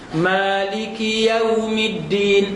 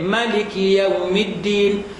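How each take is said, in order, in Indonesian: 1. Vokal pertama ma dibaca panjang. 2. Vokal pertama ma dibaca pendek. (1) "Ma panjang tu tak" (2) "kenapa tak baca pendek?"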